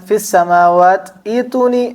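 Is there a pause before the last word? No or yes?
yes. A stop comes before the last word. "വഖഫ് ചെയ്താൽ"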